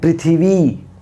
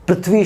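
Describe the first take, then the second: First: An i vowel is inserted after the th. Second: The th and v are said together as a cluster. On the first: "थ में भी ई ले आए" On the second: "पृथ्वी शब्द है"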